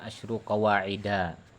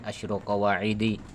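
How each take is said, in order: First: The last word ends with an 'a' vowel. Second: The last word ends with an 'i' vowel. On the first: The speaker calls it right. "Maka dia majrurnya dengan fathah. Maka dibaca Asyru Qawa'ida" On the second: The speaker calls it wrong. "Jadi bukan Asyru Qawa'idi"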